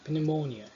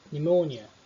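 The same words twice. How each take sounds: First: The word starts with an audible P sound. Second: The word starts with an N sound, no P. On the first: The speaker calls it wrong. "eu não pronunciei pneumonia" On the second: The speaker calls it right. "é pneumonia"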